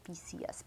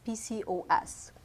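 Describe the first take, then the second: First: Low, very soft self-check; muttered slip. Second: "PCOS" with the O clearly put in; corrected pronunciation. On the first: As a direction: repeat it under your breath. Catches own slip, repeats it. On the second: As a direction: say all four letters of "PCOS". Corrects the name with the O. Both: Real, not acted.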